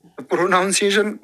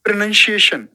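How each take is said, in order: First: प्रोनाउंसिएशन sounded out as "pro-noun-si-ation"; wrong pronunciation. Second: प्रोनाउंसिएशन said as "pro-nun-si-ation"; correct pronunciation. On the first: Teacher repeating the students' error, प्रोनाउंसिएशन with a full "noun". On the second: Teacher modelling for students, प्रोनाउंसिएशन with "nun", higher pitch. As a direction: make the second syllable of प्रोनाउंसिएशन a short "nun". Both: Shown as a demonstration. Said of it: "गलत उच्चारण है".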